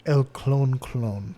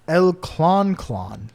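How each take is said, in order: First: "Clon Clon" drawn out with a long o, like "clone"; corrected Spanish name. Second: "Clon Clon" drawn out with an open "klahn" vowel; sounded-out Spanish name. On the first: Correcting the bird's name, "Clon" as "klohn". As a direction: say "Clon" slowly to rhyme with "bone". Second take with long o, probably. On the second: Reading out the bird's name in Ecuador, "Clon" as "klahn". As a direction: say "Clon" slowly to rhyme with "on". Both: Shown as a demonstration.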